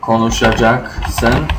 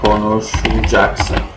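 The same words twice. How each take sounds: First: Every syllable of the word is said fully. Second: Some sounds in the word are dropped or shortened. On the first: "for sen konuşacaksın" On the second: "we say, or I say"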